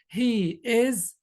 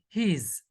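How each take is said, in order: First: Both words are said fully and separately. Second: The words are shortened into one syllable. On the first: "Instead instead of saying he is" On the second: "we say he's"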